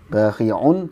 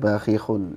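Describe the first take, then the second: First: The middle consonant is a throaty 'ain sound. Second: The middle consonant is an h sound. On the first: The speaker calls it right. "ainnya terbaca hak ya" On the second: The speaker calls it wrong. "tadi dibaca"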